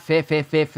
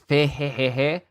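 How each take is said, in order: First: Every beat of the laugh is a 'fi' sound. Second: One 'fi' is followed by 'he' sounds. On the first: The speaker calls it wrong. "It's not fi fi fi fi" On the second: The speaker calls it right. "It's fi he he he"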